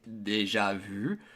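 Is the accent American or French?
French. It is said with a French accent.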